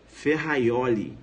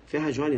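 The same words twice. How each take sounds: First: "Ferraioli" slow, J turned into an I glide; Italian pronunciation. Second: "Ferrajoli" with a zh sound for the J; wrong pronunciation. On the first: Teacher models the Italian name for students, correct pronunciation. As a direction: draw out "Ferraioli", fe-ha-YO-li. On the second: Teacher shows students what not to say, wrong pronunciation. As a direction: say "Ferrajoli" as spelt in Portuguese. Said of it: "Ferrajoli não". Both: Shown as a demonstration.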